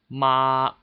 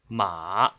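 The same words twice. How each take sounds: First: It is said with Mandarin first tone. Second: It is said with Mandarin third tone. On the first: "the first tone is ma" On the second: "The third tone is ma"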